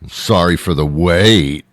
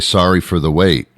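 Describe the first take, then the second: First: It is said with a sarcastic tone. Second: It is said sincerely, without irony.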